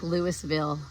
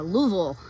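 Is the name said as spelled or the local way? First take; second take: as spelled; local way. First: It is said just as it is spelled. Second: It is said the way locals say it. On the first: This follows the written form. The speaker calls it wrong. "that's how it's spelled" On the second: This is how people there say it. The speaker calls it right. "Nope, it's"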